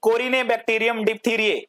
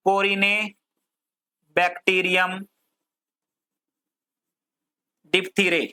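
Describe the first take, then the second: First: Said in the usual way. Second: Very drawn-out syllables, long pauses; slow dictation. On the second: Shown as a demonstration. Teacher giving students a bacterium name to write, slow dictation. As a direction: dictate it piece by piece, very slowly.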